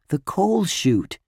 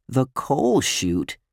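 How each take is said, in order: First: "The coal chute" high and slow, as a statement; stated answer. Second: "The coal chute" slow, as a baffled question; puzzled echo. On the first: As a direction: announce "The coal chute" with a falling end. Boy answers, friend then queries it. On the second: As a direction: repeat "The coal chute" drawn out, querying it. Friend puzzled by the term. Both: Acted.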